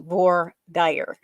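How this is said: It is said the Americanized Southern way.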